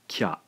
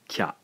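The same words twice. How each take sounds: First: It is said as one blended syllable. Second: It is said as one blended syllable.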